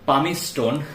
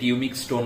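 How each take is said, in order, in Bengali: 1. প্রথম শব্দটি 'pa' দিয়ে শুরু এবং 's' দিয়ে শেষ। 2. প্রথম শব্দটি 'pyoo' দিয়ে শুরু এবং 'k' দিয়ে শেষ।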